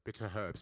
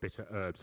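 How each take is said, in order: First: Herbs begins with an audible h sound. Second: Herbs begins with no h sound. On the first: The speaker calls it right. "We pronounce herbs with an H" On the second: The speaker calls it wrong. "it's always American and they always say bitter herbs"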